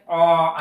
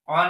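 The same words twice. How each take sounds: First: The vowel is long and drawn out. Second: The vowel is short. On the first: "तर अ असं लंबाची" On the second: "कधी अ नाही"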